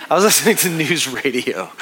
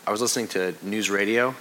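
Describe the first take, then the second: First: Repeating it with a self-mocking laugh; laughing at himself. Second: Said in the usual way. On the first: Real, not acted. Pastor laughing at his own old-man habit, amused. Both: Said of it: "That makes me sound so old".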